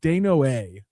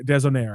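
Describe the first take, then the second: First: The name is said with a French-style pronunciation. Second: The name is said with an English-style pronunciation. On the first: The speaker calls it right. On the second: The speaker calls it wrong.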